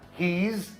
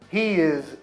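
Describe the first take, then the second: First: It is contracted into one syllable. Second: It is said as two full words.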